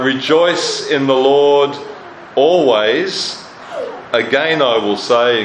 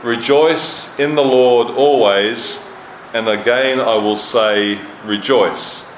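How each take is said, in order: First: Ringing proclamation. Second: "Rejoice in the Lord always" slowly, each word weighed, falling at "rejoice"; slow measured reading. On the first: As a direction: proclaim it to the whole church, slowly. Preacher proclaims scripture command. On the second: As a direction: lay the words down one by one. Preacher rereads verse, measured. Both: Acted.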